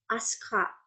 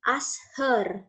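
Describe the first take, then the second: First: "Aska" as one word, softer, no h; elided "her". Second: Said in the usual way. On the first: Shown as a demonstration. Teacher demonstrating elision to students, softer "Aska" without h. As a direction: merge ask her into "Aska", dropping the h. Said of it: "Her-nya menghilang". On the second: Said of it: "Aska derived from".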